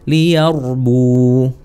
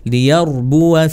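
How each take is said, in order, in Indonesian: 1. Kata itu diakhiri dengan bunyi u panjang. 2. Kata itu diakhiri dengan a pendek yang ditambahkan. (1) "Kalau waqaf, ... kan jadi panjang karena wawunya waqaf jadinya sukun" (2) "wasal disambung"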